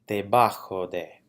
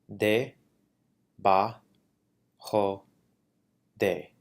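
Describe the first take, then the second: First: It is said smoothly at a normal pace. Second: It is said syllable by syllable with pauses. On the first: "saying the word in Spanish at a normal pace" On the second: "then I'll break it down into syllables"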